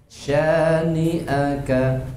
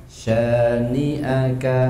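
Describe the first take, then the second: Both takes have the same delivery.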